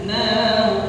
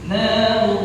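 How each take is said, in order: Both takes have the same delivery.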